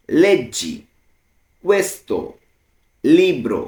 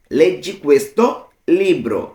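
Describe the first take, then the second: First: "Leggi ... questo ... libro", a long pause after each word. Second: Said in the usual way. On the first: Shown as a demonstration. Teacher translating read this book, word by word. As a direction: break "Leggi questo libro" into separate words for learners. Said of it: "আমরা কিন্তু ভেঙে ভেঙে".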